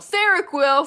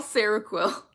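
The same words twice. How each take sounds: First: High, loud gleeful shout of Seroquel!; excited shout. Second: Said in the usual way. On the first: Real, not acted. Reacting to chat's Seroquel, a gleeful loud shout. Shouting back the drug's name.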